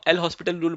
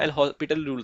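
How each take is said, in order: First: The name is said like the word hospital. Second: The name is said without the s sound. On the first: The speaker calls it wrong. "हम एल हॉस्पिटल rule बोलते थे" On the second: The speaker calls it right. "लेकिन उसका pronunciation एल हॉस्पिटल rule था"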